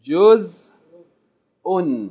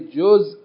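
First: The word ends with an added -un sound. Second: The word stops short with no added ending. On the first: The word is read in full, not stopped on. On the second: The speaker stops on the word.

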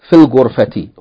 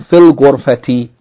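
The two takes are said the same way.

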